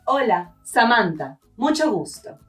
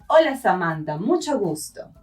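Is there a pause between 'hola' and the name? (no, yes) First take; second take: yes; no. First: There is a pause before and after the name. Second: It runs together in one breath without pausing. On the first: The name belongs to the person introducing themselves. The speaker calls it right. "make a little pause between greeting them and saying your name" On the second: The listener is being greeted as the named person. The speaker calls it wrong. "Saying it like this in one breath"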